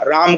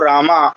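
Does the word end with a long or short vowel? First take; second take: short; long. First: The word ends without a long final vowel. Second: The word ends in a long drawn-out vowel. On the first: The speaker calls it right. "ह्रस्व आ का ही उच्चारण होना चाहिए" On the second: The speaker calls it wrong. "कई लोग अंग्रेजी में"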